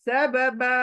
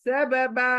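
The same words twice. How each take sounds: Both takes have the same delivery.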